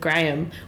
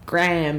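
First: The name is said with a British accent. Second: The name is said with an American accent. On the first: The speaker calls it right. "instead of Graham" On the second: The speaker calls it wrong. "Cameron Diaz is yelling out Graham"

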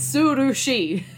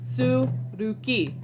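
First: The last syllable begins with a sh sound. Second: The last syllable begins with a k sound. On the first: The speaker calls it right. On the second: The speaker calls it wrong. "I was kind of pronouncing them as they were written"

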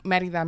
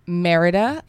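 First: It is said with a Spanish pronunciation. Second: It is said with an American gringo accent.

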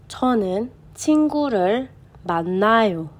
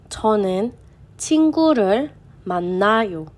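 Both takes have the same delivery.

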